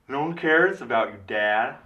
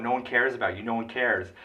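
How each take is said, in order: First: High, loud yell pushed through a covered mouth; imitating Emma Stone's yell. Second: Retold yell. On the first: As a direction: yell it with the teeth hidden behind the lips. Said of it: "So that's how she yells". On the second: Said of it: "yells at Michael Keaton".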